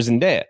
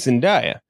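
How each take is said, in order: First: Zendaya said zen-DAY-uh. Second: Zendaya said zen-DIE-uh. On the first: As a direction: middle of Zendaya rhymes with "day". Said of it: "I say [name]". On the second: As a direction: middle of Zendaya rhymes with "die". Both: Real, not acted.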